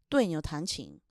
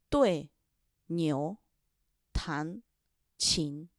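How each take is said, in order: First: It is said smoothly at normal speed. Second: It is said slowly, syllable by syllable.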